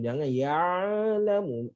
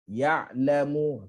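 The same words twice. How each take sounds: First: Slow "ya'lamu" with the ain held too long; drawn-out ain. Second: Slow "Ya'lamu" with a short clear ain; correct ya'lamu. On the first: Teacher warns students against this long ain. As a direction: stretch the ain in "ya'lamu" the wrong way. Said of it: "Ain dia tak panjang". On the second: Teacher models correct "Ya'lamu" for the class. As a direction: release the ain in "Ya'lamu" briefly, not long. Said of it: "Lepasan suara tapi pendek". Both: Shown as a demonstration.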